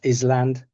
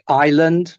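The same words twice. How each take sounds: First: The s is pronounced. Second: The s is silent. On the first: The speaker calls it wrong. "not island" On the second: The speaker calls it right. "silent letters, like island"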